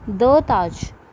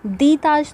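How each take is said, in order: First: The word 'the' has a short 'uh' vowel. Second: The word 'the' has a long 'ee' vowel. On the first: The speaker calls it right. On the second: The speaker calls it wrong. "दी ताज तो कभी नहीं बोला होगा"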